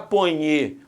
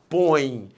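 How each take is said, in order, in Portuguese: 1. A palavra termina com uma sílaba extra "nye". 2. A palavra termina em ditongo nasal. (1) "Você não fala ponhe" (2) "você fala põe"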